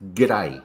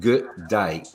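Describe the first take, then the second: First: It is said quickly as one run-together word. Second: It is said slowly as two full words. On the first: The speaker calls it right. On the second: The speaker calls it wrong.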